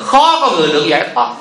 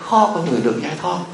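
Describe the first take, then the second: First: The phrase is said loudly and forcefully. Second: The phrase is said softly and quietly. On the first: Everyone should clearly hear the point. "Giờ ta thì la lớn chút nữa cho nghe à, như vậy" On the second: The speaker avoids upsetting the listeners. "sợ người ta buồn á, mình nói nhỏ nhỏ thôi"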